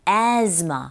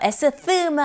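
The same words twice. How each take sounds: First: The middle consonant sounds like a z. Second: The middle consonant sounds like an s. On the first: The speaker calls it right. "z처럼 발음하시면 됩니다" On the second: The speaker calls it wrong. "asthma 아니고"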